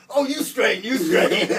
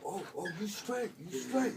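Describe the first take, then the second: First: Loud, high mimicry through laughter; laughing mockery. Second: Imitated inmate. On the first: Teller returns the inmate's reassurance after his sentence, laughing loud mimicry. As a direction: crack up while throwing his own words back at him. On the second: Inmate hears he's getting out today, imitated high-voiced approval. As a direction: reassure him in a high put-on inmate voice. Inmate reassures him, acted.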